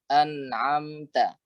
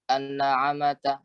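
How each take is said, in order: First: The m is closed with no vowel. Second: A vowel is added after the m. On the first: The speaker calls it right. "harus disukunkan" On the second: The speaker calls it wrong. "Jangan sampai yang sukun kemudian dipentalkan"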